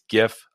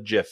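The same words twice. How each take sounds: First: It begins with a hard G sound. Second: It begins with a soft J-like sound. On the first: The speaker calls it right. "I pronounce it with a hard G" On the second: The speaker calls it wrong. "All you soft G GIF people out there, I don't know what a GIF is outside of peanut butter"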